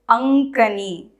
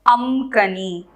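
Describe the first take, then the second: First: The nasal before the k is an ng sound. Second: The nasal before the k is an m sound. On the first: The speaker calls it right. "It is Ankani" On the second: The speaker calls it wrong. "they will be pronounced as Amkani"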